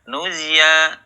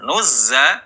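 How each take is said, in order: First: The middle consonant turns into a y sound. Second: The middle consonant is a buzzing z. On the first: The speaker calls it wrong. "berubah menjadi ya" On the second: The speaker calls it right. "za ya, alirkan suaranya"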